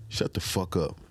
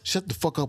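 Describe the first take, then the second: First: It is delivered calm and still. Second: It is delivered big and loud. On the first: The speaker calls it right. "what if I just said" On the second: The speaker calls it wrong. "as a rapper I might say"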